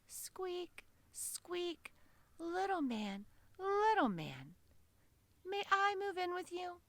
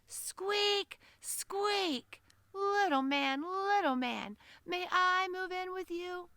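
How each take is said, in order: First: It is said in a soft, quiet voice. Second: It is said in a loud, big voice. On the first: The speaker does not want to scare the listener. "she said in a quiet voice" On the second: To a tiny listener it still seems huge. "it sounded like this"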